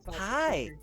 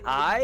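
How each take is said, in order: First: It is said in an exaggerated, flamboyant voice. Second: It is said in a plain, ordinary voice.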